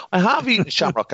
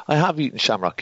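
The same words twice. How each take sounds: First: Sudden realisation. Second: Said in the usual way. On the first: Real, not acted.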